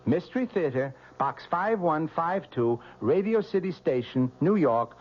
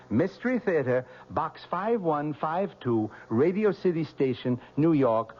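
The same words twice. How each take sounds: The two takes are said the same way.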